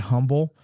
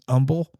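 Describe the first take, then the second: First: The word begins with an h sound. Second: The word begins without an h sound.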